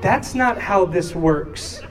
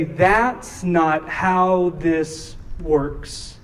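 First: Slow, measured explanation; slow correction. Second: Drawn out, word by word; very slow emphasis. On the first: Parents correcting sobbing daughter, slow measured reply. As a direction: let it land slowly for a child. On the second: Preacher repeating what he told Nora, very slow and deliberate. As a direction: pause between words to drive it home. Repeats consoling line as sermon point. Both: Retold or imitated.

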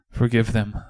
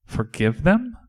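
First: Said in the usual way. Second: Higher, rising, disbelieving question; incredulous, sharply rising question; incredulous echo. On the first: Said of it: "His voice was raspy and tired and weak". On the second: Acted. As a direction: echo it back in disbelief, pitch climbing. Disciple echoes Jesus in disbelief.

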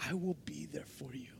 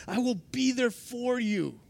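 First: Whisper. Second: Said in the usual way. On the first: Acted. Jesus's promise whispered the final time.

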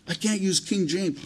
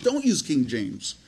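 First: Higher-pitched imitation of a reluctant person; mock excuse. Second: Slow, matter-of-fact answer to an excuse; firm rebuttal. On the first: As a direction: lightly act out someone making excuses. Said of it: "sometimes we get this attitude". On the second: Real, not acted. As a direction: dismiss the excuse slowly and plainly. Preacher answers the imagined excuse.

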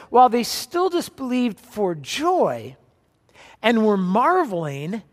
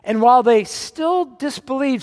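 First: Slow, weighted scripture reading. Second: Said in the usual way. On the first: Shown as a demonstration. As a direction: read it slowly, letting each word land. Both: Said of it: "It says".

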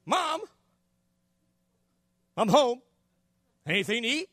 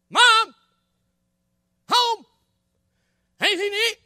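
First: Put-on child calling out. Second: Much higher, louder shout through the house; louder calling out. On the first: Boy home from school to his mom, casual calling out. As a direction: kid casually calling into the house. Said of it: "You know how you do". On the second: Acted. Boy to his missing mom, loud insistent calling. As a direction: yell for mom who hasn't answered. Boy calls again, no answer.

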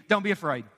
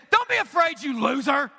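First: Said in the usual way. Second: Scornful, raised-pitch rebuke; imitated contemptuous scolding; mock angry God. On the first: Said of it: "What do you think His tone is?". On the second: Shown as a demonstration. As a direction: act out a harsh God berating someone. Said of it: "That God is angry all the time".

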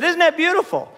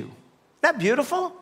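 First: Pushed out louder, prompting the crowd, with a laugh; louder repeat. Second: Marvelling. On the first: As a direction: call it out again so they answer. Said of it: "I said". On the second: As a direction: savour it, half to yourself. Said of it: "I said, "Isn't that beautiful?". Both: Shown as a demonstration.

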